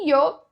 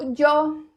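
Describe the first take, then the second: First: The Y sounds like a soft 'ee' sound. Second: The Y is strong and sharply marked. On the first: This is how several South American countries say it. "esse yo com o som do i" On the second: This is typical of Spain. "esse yo bem marcado, ele é muito característico da Espanha"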